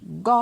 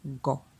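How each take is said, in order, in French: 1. La syllabe est prononcée sur un ton haut. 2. La syllabe est prononcée sur un ton bas. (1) "Avec un ton haut" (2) "Et avec un ton bas"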